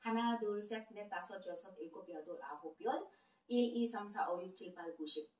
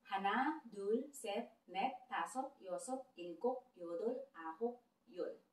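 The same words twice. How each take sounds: First: Korean numbers rattled off quickly and softly as a preview; quick sample run. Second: Korean numbers spaced out, each said clearly for learners; slow teaching count. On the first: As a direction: run through the count fast, just a taste. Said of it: "bigyan ko kayo ng sample". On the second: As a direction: count slowly so students can follow. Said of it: "Kaya dahan-dahan lang natin". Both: Shown as a demonstration.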